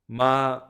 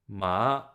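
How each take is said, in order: First: The pitch stays high and level. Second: The pitch rises from middle to high. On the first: It means mother. "the first tone is continuous, it's high pitch" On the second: It means hemp. "The second tone, it's rising"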